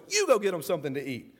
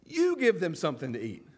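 First: "You" pressed hard, a touch of edge; emphatic command with tone. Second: Said in the usual way. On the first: Shown as a demonstration. Jesus firmly telling the disciples to feed the crowd, with a slight edge. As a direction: push the "You" like a startling order. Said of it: "a little bit of, uh, of tone in his voice". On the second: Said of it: "is emphatic".

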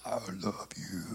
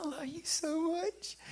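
First: Very low, soft, growly "I love you"; scary deep voice. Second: High, soft, tender "I love you so much"; tender whisper to baby. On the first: Worship leader teasing the baby girl, very low and spooky. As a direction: rumble it low enough to scare a baby. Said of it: "That scared me". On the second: Grandfather cooing love to his granddaughter, tender and soft. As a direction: coo it gently like to a newborn. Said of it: "how I say it". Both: Retold or imitated.

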